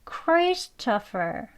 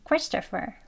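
First: The word is said slowly. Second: The word is said fast. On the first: "조금 천천히 볼게요" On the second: "빨리 발음하게 되면"

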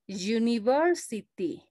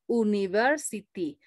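First: The word begins with a 'y' consonant sound. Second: The word begins with a plain vowel sound. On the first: The speaker calls it right. "es university" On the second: The speaker calls it wrong. "La correcta pronunciación no es university"

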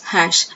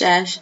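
First: The word starts with a clear h sound. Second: The word starts with a vowel, without h. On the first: The speaker calls it right. "It is not ash, it is hash" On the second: The speaker calls it wrong. "while we are pronouncing that, we'll call it as ash"

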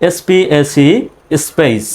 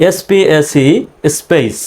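Both takes have the same delivery.

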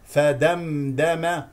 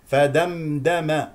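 No difference in how they are said.

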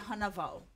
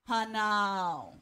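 First: A v sound is slipped between the vowels. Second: The vowels run together with no consonant. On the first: "you'll just slip in the W, which is a V sound" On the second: "instead of hanao"

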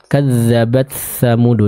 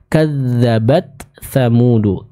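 First: The t sound blends into the following th. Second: The t is clear before the th. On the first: The speaker calls it wrong. "taknya masih agak tercampur dengan huruf tha" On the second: The speaker calls it right. "sempurnakan dulu sukun pada huruf ta, lalu kita masuk ke huruf tha"

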